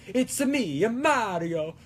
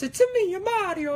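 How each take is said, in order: First: Moderately raised cartoon Italian plumber; sing-song game mascot, short of falsetto; Mario. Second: Very high-pitched cartoon Italian plumber; sky-high sing-song game mascot voice; Mario. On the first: Shown as a demonstration. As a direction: stretch it out in a less squeaky Italian lilt. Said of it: "if that's a more accurate, a Mario impression". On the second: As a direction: squeal it out in falsetto with an Italian lilt. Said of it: "a Mario impression, doing it at such a higher pitch".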